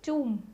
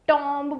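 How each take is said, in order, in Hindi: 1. अंत में 'b' ध्वनि का उच्चारण नहीं होता। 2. अंत में 'b' ध्वनि का उच्चारण होता है। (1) "राइट प्रोनाउंसिएशन इज टूम" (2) "अब इसे टॉम्ब बोलते हैं लोग, नो"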